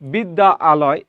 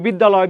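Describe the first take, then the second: First: The two words are said separately. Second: The two words merge into one quick word.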